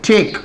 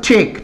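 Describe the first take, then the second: No difference in how they are said.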